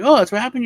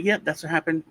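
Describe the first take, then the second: First: High, loud, doubting "happened?"; a higher, louder "Oh, that's what happened?"; sceptical cop, pitched up. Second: Said in the usual way. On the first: Retold or imitated. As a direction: cop pretending to buy the story. Cop doubts his story.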